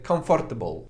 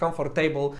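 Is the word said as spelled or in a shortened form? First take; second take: shortened; as spelled. First: It is said in a shortened, reduced form. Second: It is said as spelled, syllable by syllable. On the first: The speaker calls it right. "tylko na przykład powiesz comfortable" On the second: The speaker calls it wrong. "to nie jest comfortable"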